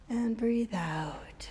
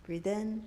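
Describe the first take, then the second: First: Slow whispered exhale cue; soft spa whisper. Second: Said in the usual way. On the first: Shown as a demonstration. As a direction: breathe the words out in a whisper. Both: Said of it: "let's do two more".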